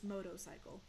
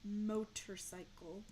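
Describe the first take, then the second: First: The word is said quickly without slowing down. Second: The word is said very slowly and carefully. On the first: The speaker calls it wrong. "if I don't slow down very, very much, it's just" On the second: The speaker calls it right. "if I say it really slowly, I can say"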